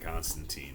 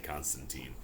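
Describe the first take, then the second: First: The last syllable is not stressed. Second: The stress falls on the last syllable. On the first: "I always said Constantine" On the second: "always stresses the teen"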